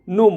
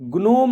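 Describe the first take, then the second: First: The word begins with an n sound. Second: The word begins with a sounded g. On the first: The speaker calls it right. "नोम बोलते हैं" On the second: The speaker calls it wrong. "ग्नोम नहीं बोलते उसको"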